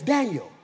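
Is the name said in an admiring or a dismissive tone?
admiring. The name is said with admiring weight. The person named is highly valued. "in my head, it's Daniel"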